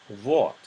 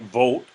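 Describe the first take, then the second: First: The vowel is between oh and aw. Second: The vowel is a close, rounded oh. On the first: The speaker calls it right. "somewhere between o and awe" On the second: The speaker calls it wrong. "it's not quite vote"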